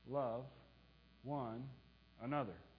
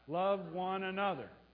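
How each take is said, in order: First: The phrase is spoken at a moderate pace. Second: The phrase is spoken very quickly.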